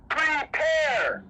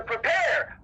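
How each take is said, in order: First: Prepare. thrown out as a shout; shouted repeat. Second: Said in the usual way. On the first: Acted. Preacher driving home the command, shouted Prepare. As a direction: hurl Prepare. at the congregation.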